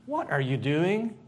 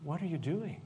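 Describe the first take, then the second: First: Slower, louder What are you doing? with the rise on What; slow demanding. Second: Softer What are you doing? with a rise on are; quiet questioning. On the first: Acting class demo, demanding an answer slowly. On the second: Acting class demo, asking gently and curious. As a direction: ask it softly, curious. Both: Shown as a demonstration. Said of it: "you gotta say the phrase like".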